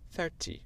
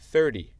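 First: British accent, the t is clearly pronounced. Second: American accent, the t sounds like d. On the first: "les Britanniques disent 30. ils prononcent le T" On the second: "c'est avec mon accent américain. 30, je dis avec le son « d »"

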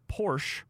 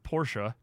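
First: The name is said in a plain, everyday way. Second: The name is said in a fancier, pretentious way.

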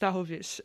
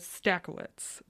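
First: The surname is said with original Polish sounds. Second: The surname is said with anglicized English sounds. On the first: The speaker calls it right. "That's the very Polish way of saying it" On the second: The speaker calls it wrong. "Everyone knows me as Stakowitz"

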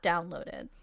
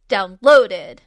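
First: The word is said with a non-British emphasis. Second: The word is said with a British emphasis. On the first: "not downloaded" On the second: "with a very British emphasis on downloaded"

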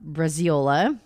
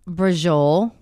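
First: The word is pronounced as Braziola. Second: The word is pronounced as Brajol. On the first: The speaker calls it wrong. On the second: The speaker calls it right.

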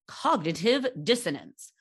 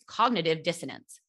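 First: It is said in a put-on voice. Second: It is said in a normal voice.

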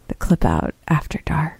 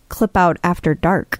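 First: It is said in a sultry radio voice. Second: It is said in a plain, ordinary voice.

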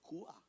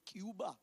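First: It is said the Cuban way, like Kooba. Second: It is said the English way, like Kyooba.

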